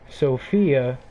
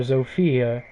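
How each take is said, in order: First: The name begins with an S sound. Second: The name begins with a Z sound. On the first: The speaker calls it right. "if you say Sophia with an S" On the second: The speaker calls it wrong. "not Zofia"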